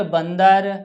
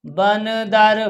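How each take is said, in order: First: Said in the usual way. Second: बंदर drawn out slowly, syllable by syllable; teacher stretching बंदर so children can follow; slow syllable reading. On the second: Shown as a demonstration. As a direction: spell out बंदर slowly for the class.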